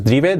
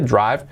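First: "drive" as DREE-beh, Spanish-style; the mistaken "drive" in two syllables; wrong spelling pronunciation. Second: "drive" as DRAIV, one syllable; correct pronunciation. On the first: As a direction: read "drive" as written in Spanish. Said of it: "No es drive". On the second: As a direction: say "drive" with an AI vowel. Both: Shown as a demonstration.

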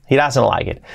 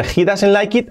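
First: The native version; real English pronunciation. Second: He doesn't like it stiff and Spanish; the school version; old classroom pronunciation. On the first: (inglés real) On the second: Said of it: "cambia mucho del". (a la española) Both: Shown as a demonstration.

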